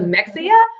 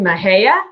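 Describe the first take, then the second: First: The middle has an 'x' sound, like 'mex'. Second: The middle sounds like 'hay', with an h. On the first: The speaker calls it wrong. "instead of Mexia" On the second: The speaker calls it right. "pronouncing Mahia"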